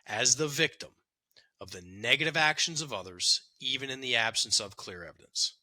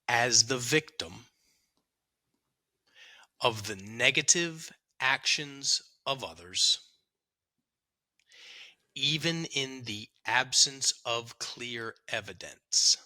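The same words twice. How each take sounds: First: It is read at a faster pace. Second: It is read at a slower pace.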